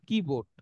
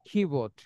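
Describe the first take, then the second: First: The k is plain, with no puff of air. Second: The k is strongly aspirated, like kh. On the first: The speaker calls it wrong. "Not কিবোর্ড" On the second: The speaker calls it right. "Sound হবে কি, খ"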